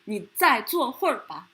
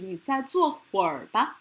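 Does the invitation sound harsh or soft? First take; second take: harsh; soft. First: It sounds harsh and tough. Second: It sounds soft and gentle. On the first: It does not come across as a friendly suggestion. The speaker calls it wrong. "sounds very harsh, very very uh, tough" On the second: It comes across as a friendly suggestion. The speaker calls it right. "if you change the tone into 你再坐会儿吧 sounds softer"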